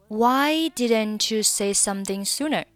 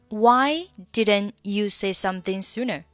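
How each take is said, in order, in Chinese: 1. didn't 的 t 连到 you 上。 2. didn't 的 t 不发音。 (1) "Didn't 和you 可以连读成didn't you" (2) "或者你可以选择didn't 末尾不发音"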